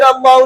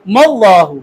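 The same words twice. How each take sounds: First: "अल्लाहु" starting on a bare A; brisk, separate "अल्लाहु"; unjoined form. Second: "मल्लाहु" with the m fused onto the double L; deliberate, linked "मल्लाहु"; joined m. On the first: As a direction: say "अल्लाहु" quickly with no m before it. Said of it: "फिर अल्लाहु नहीं पढ़ना". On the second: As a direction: start "मल्लाहु" on m, then long aa. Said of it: "मीम को लाम के साथ मिलाना". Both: Shown as a demonstration.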